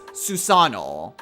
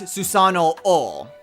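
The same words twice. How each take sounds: First: The final O is said as one long vowel. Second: The final O is said as two separate vowels. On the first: The speaker calls it right. "It's just Susanoo. You elongate it" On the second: The speaker calls it wrong. "you don't pronounce it as Susanoo. You don't pronounce that second O"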